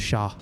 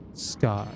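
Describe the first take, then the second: First: The word begins with an 'sh' sound. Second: The word begins with an 'sk' sound. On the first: The speaker calls it right. "or shah" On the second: The speaker calls it wrong. "It's actually not scar"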